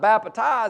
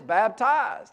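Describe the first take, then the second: First: The word is said with an extra syllable. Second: The word is said with two syllables. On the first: The speaker calls it wrong. "you're adding an extra syllable. It's not baptized" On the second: The speaker calls it right. "it's baptized"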